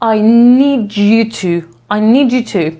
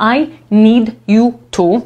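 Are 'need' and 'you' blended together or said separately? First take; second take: blended; separately. First: The d and y blend into a j sound. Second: Each word is said slowly and separately. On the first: The speaker calls it right. "kiedy mówimy to razem, to nam z tego d robi się tak jakby dż" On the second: The speaker calls it wrong. "jak ja to czytam osobno, powoli"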